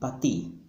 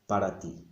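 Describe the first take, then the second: First: The word para is shortened to pa. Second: The word para is said in full. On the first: This is casual, fast everyday speech. "what you will hear on the streets" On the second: This is the careful, grammatically precise form. "When we write, of course, we write"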